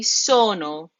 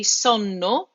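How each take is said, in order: First: SONO with a long O and one short N; drawn-out first vowel in SONO, single N. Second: SONNO with short O and long held N; double N. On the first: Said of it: "We say sono". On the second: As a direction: hit both Ns, "son-no", in SONNO. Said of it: "We don't say sonno". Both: Shown as a demonstration.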